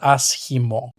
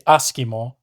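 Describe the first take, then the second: First: The middle consonant is a breathy h-like sound. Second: The middle consonant is a hard k sound. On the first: The speaker calls it right. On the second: The speaker calls it wrong.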